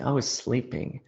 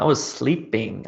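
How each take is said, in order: First: Much softer, drowsy echo of "I was sleeping"; sleepy murmur. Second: Said in the usual way. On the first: Shown as a demonstration. Teacher echoing the answer about last night, softly and sleepily. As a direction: let "I was sleeping" fade out like you're dozing off. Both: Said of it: "what was I doing last night?".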